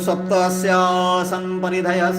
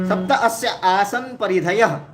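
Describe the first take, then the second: First: The words are joined into one flowing phrase. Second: Each word is said separately, broken apart. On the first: It is the form recited in the ritual. "एक साथ उच्चारण" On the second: It helps to understand the words. "तोड़ तोड़ के उच्चारण"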